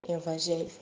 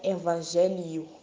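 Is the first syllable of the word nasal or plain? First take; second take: plain; nasal. First: The first syllable is plain, with no n. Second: The first syllable is nasal, with an added n. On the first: The speaker calls it right. "mas é evangelho" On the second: The speaker calls it wrong. "Não é evangelho"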